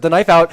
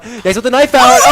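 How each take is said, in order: First: Louder, building play-by-play call; excited call. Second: High, shouting play call; esports caster. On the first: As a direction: start the hype call, rising. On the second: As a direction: scream the play at full hype. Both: Real, not acted. Caster calling a clutch play.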